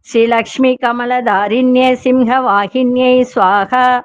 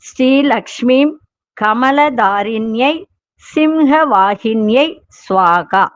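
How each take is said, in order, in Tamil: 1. மந்திரத்தை கொஞ்சம் வேகமாகச் சொல்வார்கள். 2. மந்திரத்தை மெதுவாக, நிதானமாகச் சொல்வார்கள்.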